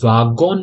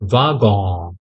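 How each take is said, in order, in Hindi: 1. आखिरी n पूरी तरह बोला जाता है। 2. शब्द का अंत हल्के नासिक स्वर से होता है। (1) "एन नहीं आएगा बेटा... वागोन नहीं है" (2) "लास्ट में हल्की सी नाक में से आवाज आएगी"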